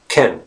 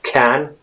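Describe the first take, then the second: First: The vowel is a weak unstressed schwa. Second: The vowel is full and stressed. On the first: The speaker calls it right. "becomes a schwa sound. It's very unstressed" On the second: The speaker calls it wrong. "it's not pronounced can"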